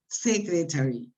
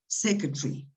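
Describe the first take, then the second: First: The vowel before the R is fully pronounced. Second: The vowel before the R is dropped. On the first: The speaker calls it wrong. "Many people say" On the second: The speaker calls it right. "No, secretary"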